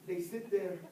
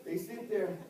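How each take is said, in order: Both takes have the same delivery.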